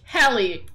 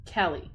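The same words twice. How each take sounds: First: Louder call of Kelly. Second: Said in the usual way. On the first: Real, not acted. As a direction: shout Kelly across the house.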